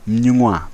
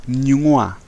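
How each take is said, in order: The two takes are said the same way.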